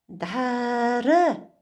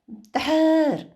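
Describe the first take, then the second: First: The word is said with the final vowel. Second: The word is said without the final vowel. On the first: This is how it is written. The speaker calls it wrong. "дара написано" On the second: This is how it is spoken. The speaker calls it right. "Мы должны говорить дар"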